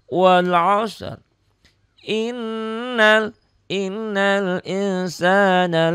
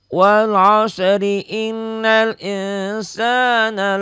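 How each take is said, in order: First: There is a stop after the first phrase. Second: The words run together without a stop. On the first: "kalau nggak diwasal" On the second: "jadi diwasal"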